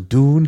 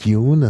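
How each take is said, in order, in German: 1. Es wird amerikanisch ausgesprochen. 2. Es wird britisch ausgesprochen. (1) "Also Dune heißt es" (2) "und nicht Dune, das ist so eine bisschen britische Aussprache"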